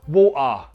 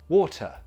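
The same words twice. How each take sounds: First: A Cockney accent with a strong final vowel. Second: A posh accent with a fuller final vowel. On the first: "A Cockney, however, they will up the schwa like this" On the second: "posh people might emphasize the schwa a little bit more, like this"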